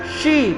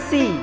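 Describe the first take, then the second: First: The syllable starts with an sh sound. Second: The syllable starts with an s sound. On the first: The speaker calls it right. "huruf shin kasroh. Shi bukan si" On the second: The speaker calls it wrong. "bukan si"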